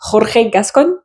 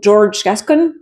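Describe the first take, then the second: First: The first name is pronounced the Spanish way. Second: The first name is pronounced the English way. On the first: "il est d'origine mexicaine, donc j'ai pas envie d'écorcher son nom" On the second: "ça dépend comment vous le prononcez"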